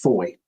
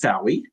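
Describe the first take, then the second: First: The name is said with one syllable. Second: The name is said with two syllables. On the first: "it's pronounced Foy" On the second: "I would pronounce this Fowey"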